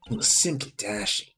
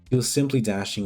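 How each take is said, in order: First: It is read in an exaggerated put-on character voice. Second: It is read in the speaker's normal natural voice. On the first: "This is too much of a voice" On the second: "I think I'll just read normally"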